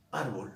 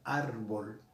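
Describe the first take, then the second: First: Said in the usual way. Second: Árbol drawn out, weight on ÁR; stress on first syllable. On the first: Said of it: "voy a, a, a probar". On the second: Shown as a demonstration. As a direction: lean slowly on the ÁR of Árbol. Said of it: "la mayor fuerza de voz en la penúltima sílaba".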